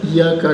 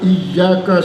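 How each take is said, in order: First: The y sound is short and single. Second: The y sound is held long and doubled. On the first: The speaker calls it wrong. "lalu bacanya kita iyyaka doang di dalam tasdid" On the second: The speaker calls it right. "iyyaka si bertasdid"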